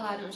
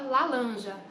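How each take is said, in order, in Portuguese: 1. A consoante do meio é um som de R. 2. A consoante do meio é um som de L. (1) "o menino ainda não fala laranja" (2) "ele fala lalanja"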